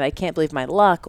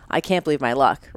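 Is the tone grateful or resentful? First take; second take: grateful; resentful. First: It is said in a happy, grateful tone. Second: It is said in a bitter, put-upon tone. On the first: The speaker feels fortunate. "Are you saying it in a gratitude way?" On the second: The speaker feels like a victim. "Or are you saying it like I'm like a victim mentality way?"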